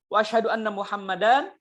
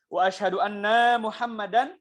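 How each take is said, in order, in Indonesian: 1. Tidak ada suku kata yang dipanjangkan lebih dari biasanya. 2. Kata 'anna' dipanjangkan.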